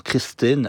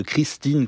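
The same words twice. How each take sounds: First: Christine with a relaxed, lax i, Québécois style; Christine, Quebec French laxed i; Quebec lax vowel. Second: Said in the usual way. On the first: Shown as a demonstration. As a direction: say Christine with the i loosened toward the vowel in "bit". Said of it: "des voyelles qui sont un peu plus relâchées". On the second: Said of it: "à la place de Christine".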